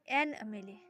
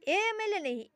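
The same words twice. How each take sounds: First: Said in the usual way. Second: ए एम एल ए raised as the wrong version; wrong form. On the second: Shown as a demonstration. Teacher warning students against the wrong form. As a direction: mark ए एम एल ए as the mistake.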